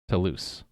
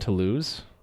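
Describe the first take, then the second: First: The name ends with a voiceless s sound. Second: The name ends with a voiced z sound. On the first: The speaker calls it right. "like loose as in not tight" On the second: The speaker calls it wrong. "I've been saying Toulouse"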